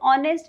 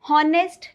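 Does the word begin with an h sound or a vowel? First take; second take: vowel; h sound. First: The word starts with a vowel sound. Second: The word starts with an h sound. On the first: The speaker calls it right. "ऑनेस्ट is the correct pronunciation" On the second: The speaker calls it wrong. "हॉनेस्ट नहीं होता"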